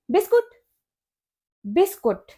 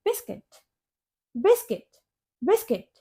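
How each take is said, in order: First: बिस्कुट as bis-KOOT; common mispronunciation. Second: बिस्किट as BIS-kit, softly; correct pronunciation. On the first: Teacher asks what learners say, mispronounced word. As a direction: say बिस्कुट with a short OO before T. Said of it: "लेकिन इसकी correct pronunciation होती है". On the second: Teacher corrects learners, correct pronunciation. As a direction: say बिस्किट with short I, light T. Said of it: "इसकी correct pronunciation होती है". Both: Shown as a demonstration.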